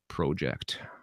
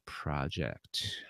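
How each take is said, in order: First: It is said in a Canadian accent. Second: It is said in a non-Canadian accent.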